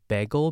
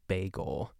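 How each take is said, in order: First: It is said with a Pittsburgh pronunciation. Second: It is said with a general American pronunciation.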